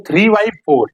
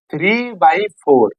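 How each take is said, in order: First: Three by four, each word drawn out slowly; slow, spelled-out reading. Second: Three by four drawn out word by word; slow, spelled-out reading. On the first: Teacher spelling out three by four to the class, slowly. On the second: Teacher repeating three by four for students, slowly. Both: Shown as a demonstration. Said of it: "इसको बारह नहीं पढ़ेंगे".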